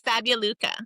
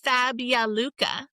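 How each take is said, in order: First: The name is said quickly and smoothly. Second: The name is said slowly and carefully.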